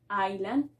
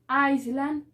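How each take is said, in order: First: The S is silent before the L. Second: The S sound is pronounced before the L. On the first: The speaker calls it right. "sino island" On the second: The speaker calls it wrong. "no vamos a decir Island"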